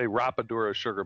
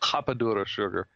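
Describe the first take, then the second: First: The R is an American English R. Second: The R sounds like an H, Brazilian style.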